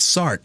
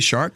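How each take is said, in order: First: The word begins with an s sound. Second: The word begins with a sh sound. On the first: The speaker calls it right. "It's Sark, like the ship" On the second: The speaker calls it wrong. "Did you say shark?"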